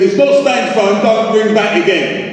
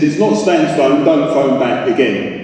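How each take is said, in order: First: Higher-pitched exasperation, slowing on the last words; aggravated, pitched up and drawn out at the end. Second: Understated irritation, slowing on the last words; irritated, drawing out the ending. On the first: Man fed up with a repeat prank caller, aggravated. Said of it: "That's aggravated". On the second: Man telling a prank caller it's a wrong number, irritated. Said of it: "That's irritated". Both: Acted.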